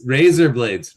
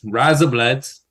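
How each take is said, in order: First: Said in the usual way. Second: "Razor blades" with Kiwi vowels, like "rise-uh bluds"; Kiwi accent. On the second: Shown as a demonstration. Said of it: "that's how you say razor blades".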